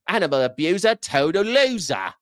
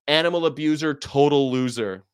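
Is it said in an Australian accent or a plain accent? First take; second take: Australian; plain. First: It is said in an imitated Australian accent. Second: It is said in the speaker's plain accent.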